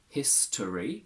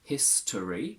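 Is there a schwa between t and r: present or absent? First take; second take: present; present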